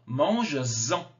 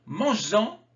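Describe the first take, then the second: First: "Mange-en" drawn out, lower, with a clear z before "en"; liaison appuyée. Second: Said in the usual way. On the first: Shown as a demonstration. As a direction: stretch "Mange-en" and lean on the linking z sound. (« Mange-en » lentement, liaison en z bien marquée) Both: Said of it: "j'ai fait la liaison".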